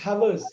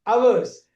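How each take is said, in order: First: The word starts with an audible H sound. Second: The word starts with no H sound. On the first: The speaker calls it wrong. "not hours" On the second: The speaker calls it right. "The H is silent, completely silent"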